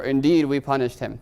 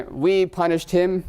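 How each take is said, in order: First: Said in the usual way. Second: Slower, higher, with a note of exclamation; exclamatory. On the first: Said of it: "So there's emphasis there". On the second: Shown as a demonstration. Teacher demonstrating an emphatic translation, exclaiming. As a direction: say it like it ends in an exclamation point. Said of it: "exclamation point".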